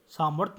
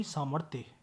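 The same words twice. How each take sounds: First: सामर्थ्य ending in bare 'th'; wrong pronunciation. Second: सामर्थ्य ending in 'thye', softer; correct pronunciation. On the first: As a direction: drop the final य from सामर्थ्य. (सामर्थ्य, य के बिना) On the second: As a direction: finish सामर्थ्य on य, falling. (सामर्थ्य में थ्य का पूरा उच्चारण) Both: Shown as a demonstration. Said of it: "सामर्थ्य नहीं".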